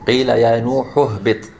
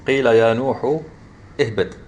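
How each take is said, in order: First: The last word links on with no glottal catch. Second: A glottal catch starts the last word. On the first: The speaker calls it right. "when we join it, we don't pronounce the hamza" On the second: The speaker calls it wrong. "You notice when you say قيل يا نوح اهبط. Is that how you said it?"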